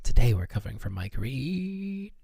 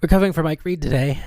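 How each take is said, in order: First: Strained restraint. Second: Quick, lifted announcer delivery; brisk restart. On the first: Host forcing out the absent presenter's name, strained. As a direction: drag out "Reed" as it tightens and climbs. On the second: Host retaking the intro after composing herself, brisk. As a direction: rattle it off fast and move on. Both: Acted.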